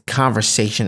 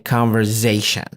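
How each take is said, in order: First: The s after the v is voiceless. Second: The s after the v is voiced like z. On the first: The speaker calls it right. "But in fact, it's conversation" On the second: The speaker calls it wrong. "they tend to articulate the S as Z"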